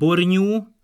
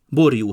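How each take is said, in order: First: An ny sound follows the r. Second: A j sound follows the r. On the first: This is the Palóc dialect form. "Néhány szóban a J helyén R után eny áll" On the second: This is the standard form.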